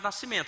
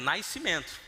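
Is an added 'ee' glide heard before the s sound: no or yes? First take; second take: no; yes. First: Said plainly, with no glide before the s. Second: Said with an 'ee' glide before the s.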